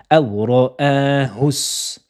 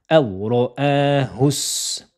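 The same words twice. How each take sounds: Both takes have the same delivery.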